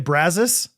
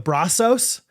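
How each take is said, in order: First: The name has an anglicized local pronunciation. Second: The name has a Spanish-style pronunciation.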